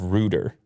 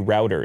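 First: The first vowel sounds like 'oo'. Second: The first vowel sounds like 'ow'. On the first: The speaker calls it wrong. "If that word is root and you put an R on it" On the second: The speaker calls it right. "I would definitely say router"

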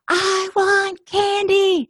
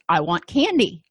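First: It is said screaming. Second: It is said a little louder.

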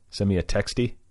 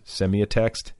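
First: The word ends with an added E sound. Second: The word ends without a final E sound. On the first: "Is it called Semiotext-E?" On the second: "or is the E silent?"

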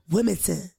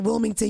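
First: Wilmington is pronounced the way locals say it. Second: Wilmington is pronounced the way outsiders say it. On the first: The speaker is from there. The speaker calls it right. "You go Wilmington" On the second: The speaker is not from there. The speaker calls it wrong. "If you're from Wilmington, you don't say Wilmington"

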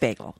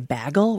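First: The word is said with a general American vowel. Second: The word is said with a Minnesota vowel. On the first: This is how the speaker thinks it should be said. The speaker calls it right. "I'm like, it's bagel" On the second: This is how people from that region say it. The speaker calls it wrong. "people in Minnesota say bagel"

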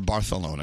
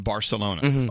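First: It is pronounced with a local Spanish accent. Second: It is pronounced with an English accent.

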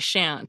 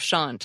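First: It is said with an American accent. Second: It is said with a British accent. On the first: "With my American accent, I'd probably say shan't" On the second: "like your wife with her British accent"

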